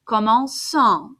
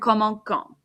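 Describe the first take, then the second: First: The c sounds like an s. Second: The c sounds like a k. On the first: The speaker calls it right. "it makes an S sound" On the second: The speaker calls it wrong. "Sounds much better than"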